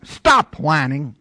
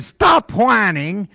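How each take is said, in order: First: Slow, measured command; the Lord speaking. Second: Loud, high, slow preacher's order; pastor's command. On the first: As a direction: state it slowly, as the Lord's word. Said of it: "So the Lord says". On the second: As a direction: raise it and punch it out from the pulpit. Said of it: "Pastor said". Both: Acted.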